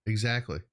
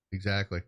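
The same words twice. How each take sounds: The two takes are said the same way.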